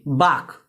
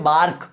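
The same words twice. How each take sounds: First: बार्क said as "baak", no r at all; silent r. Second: बार्क with a clear r sounded after the a; wrong pronunciation. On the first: Teacher shows students the right way to say bark. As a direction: drop the r in बार्क, long open a. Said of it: "बार्क का guys में आर silent है". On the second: Teacher imitating how people wrongly say bark. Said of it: "it's a wrong pronunciation". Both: Shown as a demonstration.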